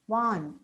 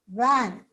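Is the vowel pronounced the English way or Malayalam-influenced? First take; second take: Malayalam-influenced; English. First: The vowel is replaced by a Malayalam-like sound. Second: The vowel is an open English a sound. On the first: "Malayalam as a mother, mother tongue may tend to pronounce these words as" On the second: "look at these words"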